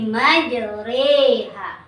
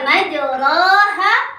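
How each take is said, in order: First: The vowel after r leans toward e. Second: The vowel after r is an open a. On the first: The speaker calls it right. "tapi majreha" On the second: The speaker calls it wrong. "bukan majraha"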